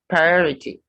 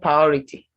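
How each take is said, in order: First: Both R sounds are pronounced. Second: One of the R sounds is dropped. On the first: The speaker calls it right. "The first R and second R must be pronounced" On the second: The speaker calls it wrong. "Not priority"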